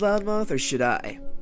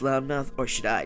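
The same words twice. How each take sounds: First: It is said in the speaker's ordinary voice. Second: It is said in a put-on character voice.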